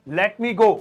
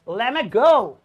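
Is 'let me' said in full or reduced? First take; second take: full; reduced. First: Let me is said fully with a clear t. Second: Let me is shortened, dropping the t sound. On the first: The speaker calls it wrong. "इसे ऐसे मत बोलिए" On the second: The speaker calls it right. "बल्कि ऐसे बोलिए"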